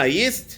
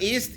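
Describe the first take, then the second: First: The word begins with a Y sound. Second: The word begins with a bare vowel sound. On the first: The speaker calls it right. "Ah, yeast" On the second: The speaker calls it wrong. "not yeast"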